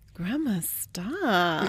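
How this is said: It is said in a flirty tone.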